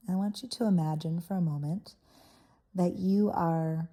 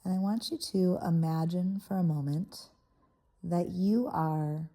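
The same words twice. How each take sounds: The two takes are said the same way.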